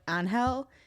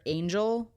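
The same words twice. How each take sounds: First: The name is said with a Spanish pronunciation. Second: The name is said with an English pronunciation. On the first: "it's how you would pronounce it if you were a Spanish speaker" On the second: "so he calls the main character Angel"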